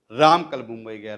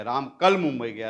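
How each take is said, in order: First: राम पर ज़ोर, ऊँचा और भारी; stress on Ram. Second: कल पर ज़ोर, बाकी सपाट; stress on kal. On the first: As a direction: hit "राम" hard and loud. ("राम" शब्द पर ज़ोर देकर) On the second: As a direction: lean on "कल" and keep the rest level. ("कल" शब्द पर ज़ोर देकर) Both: Shown as a demonstration. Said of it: "शब्दों पर जोर देकर बोलना".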